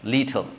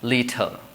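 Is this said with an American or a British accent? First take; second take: British; British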